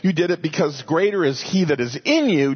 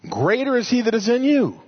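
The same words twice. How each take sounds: First: Said in the usual way. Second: "Greater is he that is in you" lifted higher with a touch more force, stress on "you"; emphatic verse. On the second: Shown as a demonstration. Preacher proclaiming his favourite verse to the congregation, emphatic. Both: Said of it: "I just love that statement".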